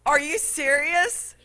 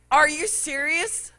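First: High, whiny disbelief repeated; baby fit. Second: High, whiny disbelief; baby fit. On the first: Preacher repeating his whiny protest to the cashier. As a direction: keep the tantrum going. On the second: Preacher mimicking his own tantrum at the counter, whiny. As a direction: throw a little tantrum. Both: Retold or imitated. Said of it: "having my little baby fit".

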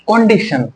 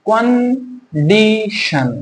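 First: Said in the usual way. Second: condition drawn out as kon, di, shon; syllable by syllable. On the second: Shown as a demonstration. Teacher showing students three beats, slowly split condition. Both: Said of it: "দেখো তিনবারে পাচ্ছি".

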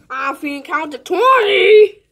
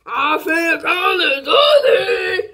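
First: Said in the usual way. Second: Slow stretched-out shout; drawn-out yell. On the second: Pretend. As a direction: drag it out and holler. Repeats announcement, drawn out.

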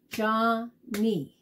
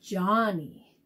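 First: "Johnny" split into two separate beats; syllable by syllable. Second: Said in the usual way. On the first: Shown as a demonstration. Teacher helping kids count syllables, "Johnny" broken syllable by syllable. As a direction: clap out "Johnny" with a gap between syllables. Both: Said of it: "fun to clap out the syllables".

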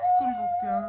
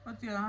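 First: Much higher, playful ಸ್ಕೂಲ್ಗೆ ಹೋಗ್ತೀಯಾ?; teasing question. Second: Said in the usual way. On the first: Real, not acted. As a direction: toss ಸ್ಕೂಲ್ಗೆ up high as a playful tease. Mother teasing child about school.

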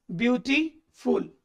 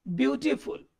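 First: "beautiful" slowly split in two, a clear pause before "फुल"; word broken apart. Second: Said in the usual way. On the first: Shown as a demonstration. ("Beautiful" को धीरे से तोड़कर, beauty और फुल के बीच रुककर) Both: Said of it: "अब जरा इसको तोड़ के देखिए".

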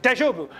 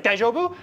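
First: "Daijobu." answered with a falling tune; "Daijobu." falling, reassuring reply; answering daijobu. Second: "Daijobu?" asked with a rising tune; "Daijobu?" rising, checking on a friend; questioning daijobu. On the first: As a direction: settle "Daijobu." down, all good. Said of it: "be like". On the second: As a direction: ask "Daijobu?" higher, as a question. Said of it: "we'd be like". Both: Retold or imitated.

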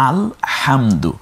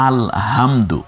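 First: আলহামদু drawn out slowly, throat pressed hard on the ha; correct Arabic h. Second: আলহামদু with a loose breathy h, no throat pressure; wrong soft h. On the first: Teacher shows students the right Alhamdu, slow and throaty. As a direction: model আলহামদু slowly with a tight throaty h, no extra vowel. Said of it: "আলাহামদু না বলে আমরা বলবো কি". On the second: Teacher demonstrates the common mistake, soft h. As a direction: let the h in আলহামদু fall loose like a Bengali h. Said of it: "কেউ যদি ... ভুলবশত কেউ বলে". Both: Shown as a demonstration.

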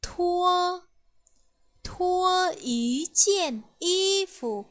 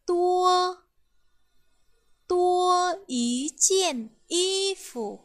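First: Thua with a strong puff of air after the t, slow and clear; slow model reading of thua ý chiên y phủ, aspirated; aspirated Mandarin t. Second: Tua with a plain t, no puff of air, slow and clear; slow model reading of tua ý chiên y phủ, unaspirated; unaspirated Mandarin t. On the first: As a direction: push breath out on the Th of Thua. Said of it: "thưa là âm bật hơi ạ". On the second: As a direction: say Tua with the tongue tip held crisp, no breath after it. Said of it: "Âm tưa là âm không bật hơi". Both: Shown as a demonstration.

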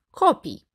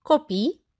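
First: "copii" stressed on the first syllable, KO-pee, pitch falling; "copii" with front stress, closing fall. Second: "Copii" stressed on the last i, ko-PEE, pitch rising; "Copii" with end stress, left rising; stress on final syllable. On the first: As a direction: say "copii" as CO-pii, high start then drop. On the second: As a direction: say "Copii" as co-PII, weight on the ending. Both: Shown as a demonstration. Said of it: "următoarele omografe".

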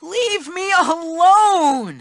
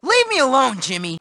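First: Slow, stretched-out whining plea; drawn-out plea. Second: Low, falling-away brush-off; weary brush-off. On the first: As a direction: drag out the plea to be left in peace. Nerd begging bully to stop. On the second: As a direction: brush off the bully wearily. Nerd brushing off his bully. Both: Acted.

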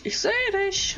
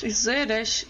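First: High teasing ich sehe dich on dich; much higher mocking sing-song; sing-song taunt. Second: Said in the usual way. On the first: Real, not acted. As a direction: taunt him like hide-and-seek. Taunting hidden player.

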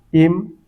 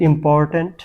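First: important broken into three separate syllables, long pauses between. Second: Said in the usual way. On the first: Shown as a demonstration. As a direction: sound out important as ইম, পর, ট্যান্ট. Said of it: "এটাও তিন syllable বিশিষ্ট". (Important তিন সিলেবলে থেমে থেমে ভেঙে বলা) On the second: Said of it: "আমি যদি বলি ইম্পর্ট্যান্ট".

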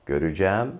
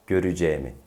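First: "Göreceğim" as gö-rü-cæm, rising; open e. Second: "Göreceğimi" as gö-rü-ce-mi, falling; closed e. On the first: Teacher repeats the comparison, "Göreceğim" with open æ. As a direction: open up the last vowel of "Göreceğim". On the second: Teacher repeats the comparison, "Göreceğimi" with closed e. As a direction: keep the e narrow in "Göreceğimi". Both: Shown as a demonstration. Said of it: "bir e farkı var".

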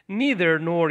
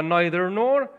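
First: "Neither" starting with a long "nee"; NEE-ther pronunciation. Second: "neither" starting like "nigh"; NYE-ther pronunciation. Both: Shown as a demonstration. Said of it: "هر دو درسته".

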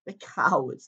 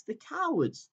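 First: Said in the usual way. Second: Sobbing. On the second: A narrator's reading. Susan weeping at the cruel crowd, a high sobbing cry. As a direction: let cowards break upward into a sob. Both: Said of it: "sobbed Susan".

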